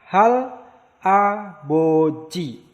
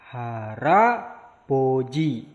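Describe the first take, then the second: First: The final consonant stays separate from the next syllable. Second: The final consonant links into the next syllable.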